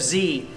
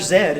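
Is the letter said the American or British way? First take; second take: American; British. First: The letter is said the American way, like zee. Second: The letter is said the British way, like zed.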